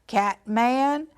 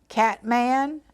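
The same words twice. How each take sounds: The two takes are said the same way.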